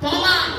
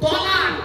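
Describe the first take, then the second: First: The first consonant is a heavy, emphatic t. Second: The first consonant is a heavy, emphatic t.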